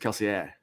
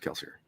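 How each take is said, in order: First: The name is said with a French pronunciation. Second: The name is said with an English pronunciation. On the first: This is how people inside the story world say it. "in world, the way you'd say is Kelsier ... like the French pronunciation" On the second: This is how a reader of the books says it. "the way it's pronounced reading it is Kelsier"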